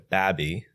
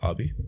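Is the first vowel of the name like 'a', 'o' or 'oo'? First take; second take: a; o. First: Midwestern style, with an 'a' vowel. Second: Traditional style, with an 'o' vowel.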